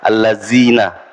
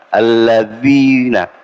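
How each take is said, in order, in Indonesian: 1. Konsonan di tengah terdengar seperti 'z'. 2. Konsonan di tengah terdengar seperti 'th' dalam 'this'. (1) "kalau di belakang dia jadi zal" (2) "ujung lidah ketemu dengan gigi seri depan atas"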